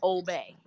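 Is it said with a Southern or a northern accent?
northern. It is said like obey, northern style.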